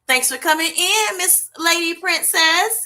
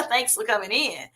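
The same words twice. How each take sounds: First: Sing-song welcome. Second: Said in the usual way. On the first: Real, not acted. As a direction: welcome her like a favourite guest. Greeting a viewer by name.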